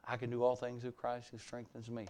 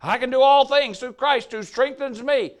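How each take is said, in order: First: Soft, mumbled weak recital; half-hearted recital. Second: Louder, higher, confident proclamation; bold declaration. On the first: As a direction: recite it timidly, barely aloud. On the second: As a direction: proclaim it with full conviction. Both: Shown as a demonstration. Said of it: "Say it better than that".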